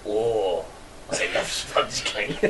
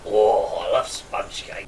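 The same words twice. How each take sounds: First: Low, soft, slow murmur; sample wording. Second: Low, hushed, slow murmur; restrained, murmured with pleasure; not over the top. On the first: Giving friend the wording to say, low soft murmur. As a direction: murmur it low with an unvoiced tail. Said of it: "an Eastern German accent". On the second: Showing friend the toned-down version, low soft murmur. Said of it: "don't go over the top. Just". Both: Shown as a demonstration.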